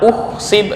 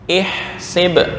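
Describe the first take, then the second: First: The word begins with a u vowel. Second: The word begins with an i vowel. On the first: The speaker calls it wrong. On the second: The speaker calls it right.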